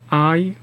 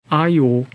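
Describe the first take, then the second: First: The two vowels are said separately, without a glide. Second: A y-glide joins the first vowel to the next. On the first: The speaker calls it wrong. "I, O, I, O 라고 하는 것보다" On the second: The speaker calls it right. "이처럼 들리는 발음을 다음 음절의 초성처럼 발음하는 것이 더 자연스럽다"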